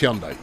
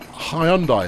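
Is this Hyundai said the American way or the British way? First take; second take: American; British. First: It is said the usual American way. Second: It is said the usual British way. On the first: The speaker calls it right. "It's Hyundai. ... that's how the Americans ... pronounce it" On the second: The speaker calls it wrong. "Hyundai is how we pronounce it over here, but it's not"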